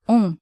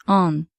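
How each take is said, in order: First: "on" as nasal vowel, no N. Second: "on" with English N sounded; wrong, with N. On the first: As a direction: say "on" through the nose. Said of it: "is pronounced on". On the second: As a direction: show the wrong "on" with N. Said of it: "and not on". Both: Shown as a demonstration.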